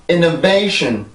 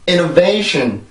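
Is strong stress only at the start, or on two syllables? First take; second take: two syllables; two syllables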